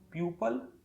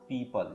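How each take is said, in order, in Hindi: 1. यह 'pew-pul' जैसा सुनाई देता है। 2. यह 'pee-pul' जैसा सुनाई देता है। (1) "लोग प्यूपल या प्यूपिल कर देते हैं, जो कि सही नहीं है" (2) "बल्कि हमें बोलना पड़ेगा पीपल"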